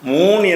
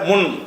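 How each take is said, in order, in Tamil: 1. உயிர் நீளமாக ஒலிக்கிறது. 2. உயிர் குறுகியாக ஒலிக்கிறது. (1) "மூன் என்பதை" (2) "முன் என்றதை சொல்லணும்"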